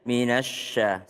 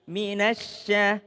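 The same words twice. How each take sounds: First: The sya is said with rounded, pushed-out lips. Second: The sya is said with spread, smiling lips. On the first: The speaker calls it wrong. "sya dimajuin bibirnya. Minasya, salah, keliru" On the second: The speaker calls it right. "Tapi minasya, senyum aja, biasa aja"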